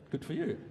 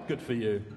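First: It sounds warm and sincere. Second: It sounds aggressive.

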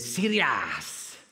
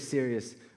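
First: The word ends with a drawn-out 'ah' sound. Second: The word ends plainly without an added vowel. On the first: "When something's really serious, we say serious" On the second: "we don't say serious"

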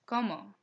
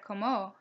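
First: The stress is on the first syllable. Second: The stress is on the second syllable. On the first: The speaker calls it right. "an O means there is an emphasized sound on the O" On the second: The speaker calls it wrong. "Instead of"

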